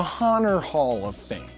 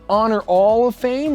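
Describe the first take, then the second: First: The H is pronounced in both words. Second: The H is silent in both words.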